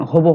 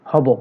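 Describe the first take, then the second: First: হব mispronounced "hobo" with closed o; wrong o vowel. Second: হব with open ɔ first, "hɔbo"; exception, open vowel. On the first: Teacher rejecting a form for students, o-vowel হব. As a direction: round the first vowel of হব to o. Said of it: "হবে না". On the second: Teacher showing the exception, open-vowel হব. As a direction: keep হব open at the start. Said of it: "ব্যতিক্রম". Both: Shown as a demonstration.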